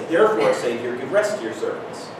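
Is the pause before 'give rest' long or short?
short. There is a short pause before 'give rest'. The sentence is phrased as one whole thought. The speaker calls it right. "What I'd actually say is, ... So make the pause here between the last two really small"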